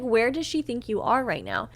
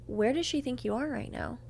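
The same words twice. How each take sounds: First: "Where does she think you are right now" said firmly at full voice; pointed, clearly projected "Where does she think you are right now"; repeated for emphasis. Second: Soft, slightly lifted question; understated probing question; first, unheard asking. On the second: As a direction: ask it quietly, almost under your breath. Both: Retold or imitated. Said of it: "magically couldn't hear me".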